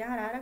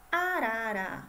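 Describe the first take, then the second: First: Said in the usual way. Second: ARARA sounded out louder in clear syllables. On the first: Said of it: "sabemos que arara começa com A". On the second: Shown as a demonstration. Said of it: "Olha o som aí". ("Arara" marcado sílaba por sílaba)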